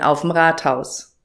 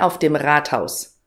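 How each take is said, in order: First: 'Auf dem' is merged into one short syllable. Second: Both words 'auf dem' are said in full.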